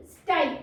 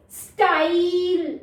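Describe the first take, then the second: First: Said in the usual way. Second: स्टाइल stretched very slowly, long आई sound held; slow drawn-out demo. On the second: Shown as a demonstration. Teacher showing the long vowel to kids, stretched slowly. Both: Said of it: "आई का long sound".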